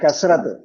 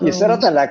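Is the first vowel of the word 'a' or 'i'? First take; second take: a; i. First: The first vowel sounds like 'a'. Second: The first vowel sounds like 'i'. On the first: The speaker calls it right. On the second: The speaker calls it wrong.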